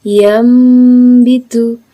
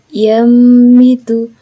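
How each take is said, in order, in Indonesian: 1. Bunyi sengau sebelum b adalah bunyi m. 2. Bunyi sengau sebelum b adalah bunyi m.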